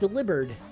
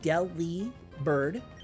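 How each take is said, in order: First: It sounds like the word delivered. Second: It sounds like the words deli and bird. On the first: The speaker calls it wrong. "like the pun on delivered" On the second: The speaker calls it right. "like Deli bird"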